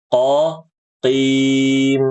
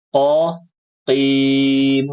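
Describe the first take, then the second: Both takes have the same delivery.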